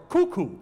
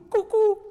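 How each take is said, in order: First: Said in the usual way. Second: Cuckoo sung out much higher and louder like the bird; imitated cuckoo call. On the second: Shown as a demonstration. Preacher showing onomatopoeia with a mock cuckoo call. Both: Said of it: "a word sounds like what it names".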